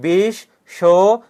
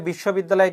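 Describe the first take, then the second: First: বিশ্ববিদ্যালয় said slowly in separate syllables, with pauses between. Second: Said in the usual way. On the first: Shown as a demonstration. Teacher shows students the syllables in a word, বিশ্ববিদ্যালয় said syllable by syllable. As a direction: break বিশ্ববিদ্যালয় into syllables, slow and louder. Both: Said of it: "যতটুকু একবার উচ্চারণ করা যায়".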